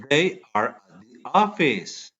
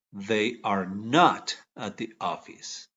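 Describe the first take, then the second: First: Said in the usual way. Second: Not leaned on, said a bit lower and slowly; slow, stressed not. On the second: Shown as a demonstration. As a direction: slowly press the word not for the class. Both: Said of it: "¿Cómo queda?".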